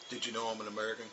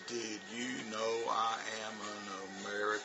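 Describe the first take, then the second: First: It is said quickly, words run together. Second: It is said slowly, word by word. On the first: The speaker calls it right. "It takes like one point something seconds" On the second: The speaker calls it wrong. "it's like four or five seconds"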